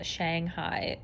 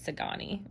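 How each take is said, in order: First: The name starts with an 'sh' sound. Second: The name starts with an 's' sound. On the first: The speaker calls it wrong. "I've been pronouncing this word as Shanghai" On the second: The speaker calls it right. "I've just now realized it's Sagani"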